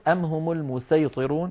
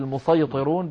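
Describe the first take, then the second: First: المسيطرون with a light, plain s; sin in المسيطرون. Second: المسيطرون with a heavy emphatic s; emphatic s opening the stressed part of المسيطرون; sad in المسيطرون. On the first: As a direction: say المسيطرون with a thin sin, not sad. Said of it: "بالسين". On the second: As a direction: say المسيطرون with a thick, dark sad. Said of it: "بالصاد". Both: Shown as a demonstration.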